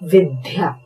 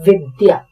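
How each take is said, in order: First: The middle consonant is an aspirated dh. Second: The middle consonant is a plain unaspirated d. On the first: The speaker calls it wrong. "अधिकतर लोग इसका उच्चारण करते हैं विद्या" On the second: The speaker calls it right. "नाम है विद्या"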